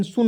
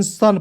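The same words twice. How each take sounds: First: सुन with the u sounded "oo"; wrong pronunciation. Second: सन with a short "uh", no u sound; correct pronunciation. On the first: Teacher saying not to read so, demonstrating wrong pronunciation. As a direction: misread sun as सुन. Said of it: "सुन नहीं पढ़ेंगे". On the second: Teacher giving the right reading, demonstrating correct pronunciation. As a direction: read सन to rhyme with "fun". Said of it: "S U N सन पढ़ेंगे". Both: Shown as a demonstration.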